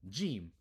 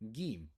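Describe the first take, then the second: First: It begins with a soft j sound. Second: It begins with a hard g sound. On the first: This is the standard form of the letter name. "this sounds like the J sound. This is the Jim" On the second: This is the Egyptian dialect form of the letter name. "in Egypt, you're gonna hear this pronounced as uh, with a gus sound. So this might be gim"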